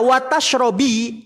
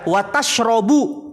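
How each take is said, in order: First: The verb ends with the vowel i. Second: The verb ends with the vowel u. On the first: Do not eat fish and do not drink milk. "kalau dibaca watash robi" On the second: Do not eat fish, but do drink milk. "kalau maknanya eh dibaca watashrobu"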